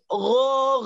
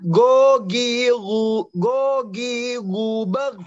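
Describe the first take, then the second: First: The R is trilled with the tongue tip. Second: The R is made far back, like G. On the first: The speaker calls it right. "Tapi kalau ro di atasnya dikit" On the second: The speaker calls it wrong. "Jangan sampai ke G. Bukan bukan gogiru gogiruber"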